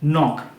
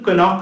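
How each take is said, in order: First: No k sound is pronounced before the n. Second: A k sound is pronounced before the n. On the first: The speaker calls it right. "কেটা থাকবে প্রথমে as a silent letter" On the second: The speaker calls it wrong. "কনক না"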